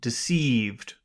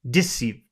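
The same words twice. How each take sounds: First: The stress is on the second syllable. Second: The stress is on the first syllable. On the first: The speaker calls it right. "second is natural" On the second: The speaker calls it wrong. "first I'll emphasize the first syllable"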